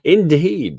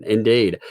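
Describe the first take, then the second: First: Indeed said in a posh British accent, higher and louder; a clipped upper-class British Indeed. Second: Said in the usual way. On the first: Shown as a demonstration. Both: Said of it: "I can do a better British accent".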